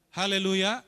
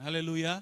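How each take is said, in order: First: "Haleluya" called out loud, rising at the end; a rousing, rising "Haleluya"; loud hallelujah. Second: Said in the usual way. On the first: Real, not acted. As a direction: lift the room with "Haleluya". Preacher repeats the praise.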